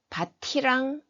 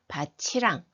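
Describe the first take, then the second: First: The final consonant is pronounced as a plain t. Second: The final consonant is pronounced as a ch sound. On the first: The speaker calls it wrong. "밭이랑 안 하고" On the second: The speaker calls it right. "구개음화가 적용이 됩니다"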